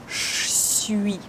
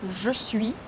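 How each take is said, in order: First: The two words are squeezed into a reduced form. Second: Both words are pronounced fully and distinctly.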